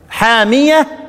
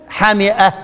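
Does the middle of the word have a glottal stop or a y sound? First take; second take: y sound; glottal stop. First: A long first vowel and a y sound. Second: A short first vowel and a glottal stop. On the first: "وحامية بالمد وفي الهمز ياء" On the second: "بالقصر والهمز"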